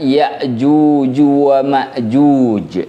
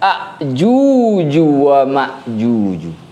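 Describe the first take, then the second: First: A glottal stop follows the first vowel. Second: The word starts with a instead of ya. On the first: "menggunakan hamzah yang berharokat sukun" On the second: "mengganti huruf ya dengan huruf alif"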